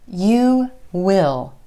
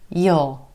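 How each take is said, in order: First: It is said as two full words. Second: It is said in a further reduced form. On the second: "most of the time this one's going to reduce too"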